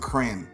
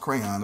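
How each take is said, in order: First: The second syllable's O vowel is dropped. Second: The second syllable's O vowel is clearly said. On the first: The speaker calls it wrong. "I hate when people pronounce it crayon" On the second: The speaker calls it right. "It's an O in there"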